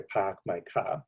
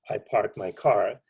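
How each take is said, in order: First: It is said in a Boston accent. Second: It is said in a standard American accent.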